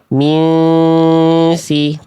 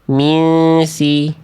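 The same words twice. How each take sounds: First: The nasal sound is held for two counts. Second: The nasal sound is cut short, rushed. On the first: The speaker calls it right. "Harusnya tahan dulu dua harokat. Kayak nahan gunnah" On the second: The speaker calls it wrong. "Tapi nggak ditahan"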